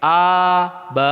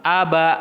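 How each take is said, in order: First: A stretched long, then ba; drawn-out wrong syllable; wrongly lengthened. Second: A, ba run together short and crisp; smooth connected syllables; joined short syllables. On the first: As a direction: demo of the mistake of lengthening A. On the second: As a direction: link A and ba quickly. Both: Shown as a demonstration.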